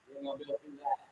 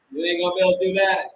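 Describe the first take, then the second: First: Softer, almost under the breath; softer warning. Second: Louder, fast warning; louder, fast warning to bullies; louder and faster. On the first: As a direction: drop it nearly to a murmur. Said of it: "repeated line, dropped". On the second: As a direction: fire it off quickly and louder. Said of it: "repeated line, punched". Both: Shown as a demonstration.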